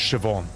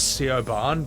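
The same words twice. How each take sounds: First: The name sounds like shi-vawn. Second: The name is read as it is spelled. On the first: This is the name's real pronunciation. The speaker calls it right. "but no, it's" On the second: This is the name as first assumed. The speaker calls it wrong. "I thought the name was"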